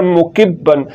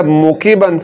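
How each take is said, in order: First: मुकिब्बन with the बा held and doubled. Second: मुकिबन with one short b, no doubling; single ba, wrong. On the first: Teacher shows the shadda, ba held double. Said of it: "ये बा मुशद्दद है". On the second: Teacher shows the mistake, single short ba. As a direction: rush the b of मुकिबन. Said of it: "की बजाय इसको पढ़ दिया". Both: Shown as a demonstration.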